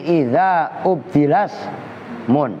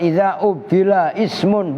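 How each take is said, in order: First: Ismun's first vowel is dropped and joined to ubdila. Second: Ismun starts with its own separate vowel onset. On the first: The speaker calls it right. "hamzah yang ada pada lafaz ismun itu hamzah wasol" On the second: The speaker calls it wrong. "Jadi bukan idza ubdila ismun, bukan"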